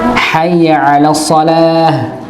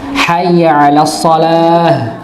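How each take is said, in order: The two takes are said the same way.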